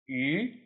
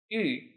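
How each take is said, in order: First: The pitch does not fall on the syllable. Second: The pitch falls on the syllable. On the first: The word means fish. "which means fish" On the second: The word means jade. "the fourth tone, which is the falling tone"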